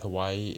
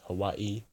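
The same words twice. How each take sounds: First: It is said smoothly without a glottal stop. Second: It is said with a glottal stop before the end.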